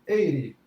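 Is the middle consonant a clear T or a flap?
flap. The middle consonant is a quick R-like flap. "para o americano"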